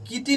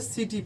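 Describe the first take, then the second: First: The word begins with a K sound. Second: The word begins with an S sound. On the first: The speaker calls it wrong. "इसको किटी नहीं पढ़ेंगे" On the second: The speaker calls it right. "सिटी पढ़ेंगे"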